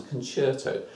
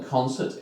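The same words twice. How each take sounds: First: "concerto" with an Italian ch sound; Italian pronunciation. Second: Said in the usual way. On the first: Shown as a demonstration. Teacher explaining C becomes ch, "concerto" said the Italian way. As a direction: say "concerto" as con-CHAIR-toe. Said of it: "say it in a sort of an Italian accent". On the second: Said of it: "So rather than concert".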